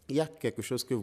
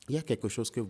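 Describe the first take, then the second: First: It is spoken more slowly. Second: It is spoken very fast. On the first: The speaker calls it right. "on y va lentement" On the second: The speaker calls it wrong. "elle est trop rapide en plus"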